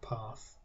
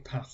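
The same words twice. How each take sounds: First: The word is said with a non-Lincolnshire pronunciation. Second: The word is said with a Lincolnshire pronunciation. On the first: "not path" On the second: "in Lincolnshire we say path"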